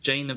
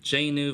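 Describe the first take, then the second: First: The word ends in a V sound. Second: The word ends in a W-like sound. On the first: This is the southern, Munster way of saying it. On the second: This is the northern, Ulster way of saying it.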